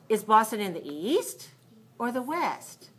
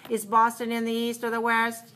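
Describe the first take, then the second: First: The words east and west are clearly stressed. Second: The words east and west are not stressed. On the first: The speaker calls it right. "Now can you hear the, the, the key words?" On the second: The speaker calls it wrong. "Not too good"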